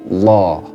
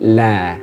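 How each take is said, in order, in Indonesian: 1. Bunyi L itu tebal dan berat. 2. Bunyi L itu tipis dan ringan. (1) "kalau tafhim" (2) "Kalau tarqiq itu"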